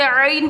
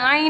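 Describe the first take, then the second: First: "आइन" with the Arabic throat consonant ayn; correct Arabic ayn. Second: "आइन" with a plain vowel, no throat consonant; incorrect ayn. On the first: Teacher models the letter for students, correct throaty "आइन". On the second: Teacher shows students the mistake, "आइन" without the Arabic throat sound. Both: Shown as a demonstration. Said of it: "आइन नहीं पढ़ना".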